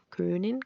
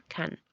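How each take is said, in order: First: Können with a rounded ö, stretched and rising; Können vs kann. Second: Kann short and much softer, with an open a; kann vs Können. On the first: Teacher contrasting Können with kann for students. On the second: Teacher contrasting kann with Können for students. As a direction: drop kann quietly, short and flat. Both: Shown as a demonstration. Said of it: "¿Sí ven?".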